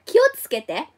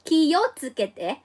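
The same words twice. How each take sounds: First: Said in the usual way. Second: "Kiotsukete" spelled out slowly, syllable by syllable; "Kiotsukete" drawn out for learners to copy; careful slow Japanese. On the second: Shown as a demonstration. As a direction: teach "Kiotsukete" slowly and clearly, ki-o-tsu-ke-te. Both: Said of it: "oh, I'm so sorry".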